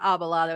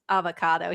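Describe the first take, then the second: First: It is pronounced with b and l sounds. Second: It is pronounced with v and c sounds. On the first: The speaker calls it wrong. "it's not abalado" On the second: The speaker calls it right. "it's avocado"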